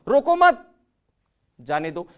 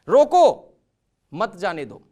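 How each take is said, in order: First: There is a pause right after 'मत'. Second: There is a pause right after 'रोको'.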